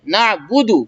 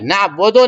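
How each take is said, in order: First: The vowels are sounded like 'oo'. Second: The vowels are sounded like 'o'. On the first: The speaker calls it right. "मारूफ सीखना है" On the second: The speaker calls it wrong. "ना बोदो नहीं"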